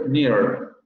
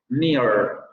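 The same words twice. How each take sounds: First: The final r sound is clearly pronounced. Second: The final r sound is clearly pronounced.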